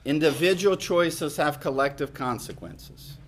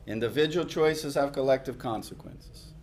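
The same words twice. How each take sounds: The two takes are said the same way.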